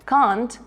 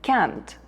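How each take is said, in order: First: The word is said with a British accent. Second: The word is said with an American accent. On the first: "британці та американці вимовляють це слово трохи по-різному" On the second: "британці та американці вимовляють це слово трохи по-різному"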